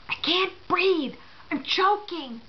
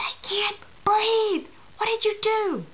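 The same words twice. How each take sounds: First: Squeezed through a swollen throat, slow and higher; imitating a throat closing up; choking voice. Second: Very slow, much higher, strangled through a swollen throat; desperate choking. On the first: Patient gasping to the leaving nurse through a swollen throat. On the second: Retold or imitated. Patient repeating herself to the nurse, more desperate and strangled. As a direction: push each word out as the airway closes. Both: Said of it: "through a very teeny crevice in my throat".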